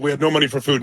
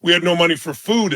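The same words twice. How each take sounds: First: "no" leaned on, a bit lower overall; stress on no. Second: Said in the usual way. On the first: Shown as a demonstration. Repeating the hard Thanksgiving fact to the audience, stress on "no". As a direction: hit the word "no" and let "food" settle.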